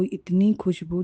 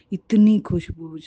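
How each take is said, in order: First: Said in the usual way. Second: इतनी pushed louder and drawn out slowly; stress on इतनी. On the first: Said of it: "repeats the phrase, then stresses it". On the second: Shown as a demonstration. To the sangat, marvelling at the earthy fragrance, with इतनी stressed loud and slow. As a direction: lean hard on इतनी, then let Khushboo fall. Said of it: "repeats the phrase, louder and slower".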